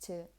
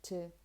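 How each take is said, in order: First: The word has a weak, reduced vowel. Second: The same.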